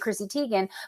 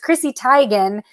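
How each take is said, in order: First: Teigen is pronounced like the name 'Tegan'. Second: Teigen is pronounced differently from 'Tegan'. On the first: This is how most people say the name. The speaker calls it wrong. "You say Chrissy Teigen" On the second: This is how the name's owner says it. The speaker calls it right. "she says it's Chrissy Teigen"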